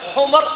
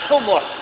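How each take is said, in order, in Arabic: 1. لا تأتي بعد الميم أي حركة. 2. تأتي بعد الميم ضمة قصيرة. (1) "حمر أي الأحمر جمع أحمر" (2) "تسمع حمر بضم الميم"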